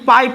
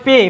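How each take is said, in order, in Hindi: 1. स्वर 'eye' जैसा सुनाई देता है। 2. स्वर 'ay' जैसा सुनाई देता है। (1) "ना ही पाई पढ़ेंगे इसको" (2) "यहाँ पर ए का ध्वनि एकर हो रहा है"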